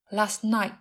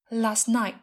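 First: The first t is dropped, the second glottal. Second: The first t is dropped, the second glottal.

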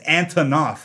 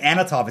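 First: The name is said as an-to-nov. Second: The name is said as a-na-tov. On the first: The speaker calls it right. "It's Antonov" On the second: The speaker calls it wrong. "I keep saying Anatov"

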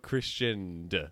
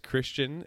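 First: The name ends with an added D sound. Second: The name ends without a D sound.

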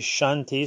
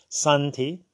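First: The word begins with an 'sh' sound. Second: The word begins with an 's' sound. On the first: "some say Shanti" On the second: "some say Santi"

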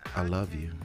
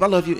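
First: It is said in a slow, heartfelt way. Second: It is said in a quick, offhand way.

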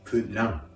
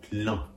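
First: The word ends in a plain spoken n sound. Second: The vowel is nasal with air through the nose. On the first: The speaker calls it wrong. "カタカナ発音" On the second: The speaker calls it right. "鼻から息を抜かすように"

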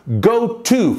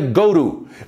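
First: It is said slowly with each word distinct. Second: It is said fast with the words run together.

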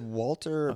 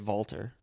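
First: The name begins with a W sound. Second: The name begins with a V sound.

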